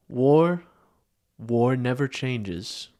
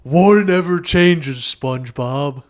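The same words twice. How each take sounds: First: Slow, grave narrator voice; lightly voiced wasteland narrator, drawn out; Fallout narrator. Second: Shouted Fallout line. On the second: Pretend. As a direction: belt the line out, slow and big. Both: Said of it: "a Fallout style intro of SpongeBob".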